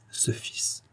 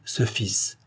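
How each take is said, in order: First: Hushed whisper of ce fils. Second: Said in the usual way. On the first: A narrator's reading. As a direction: breathe the words ce fils, voiceless and soft. Narrator's hushed repeated word. (chuchoté, ce fils à voix basse)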